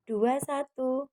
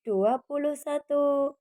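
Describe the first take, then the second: First: The middle word 'puluh' is dropped. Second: The middle word 'puluh' is clearly said. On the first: The speaker calls it wrong. "Anak-anak sering menghilangkan kata puluhnya. Seringnya cuma diucapkan" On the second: The speaker calls it right. "mulai sekarang yuk diperbaiki. Kita ucapkan dengan"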